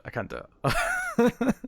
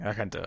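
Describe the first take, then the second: First: I can't do it pitched high and slow; high mock wail. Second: Said in the usual way. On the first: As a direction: whine I can't do it up high and drawn out.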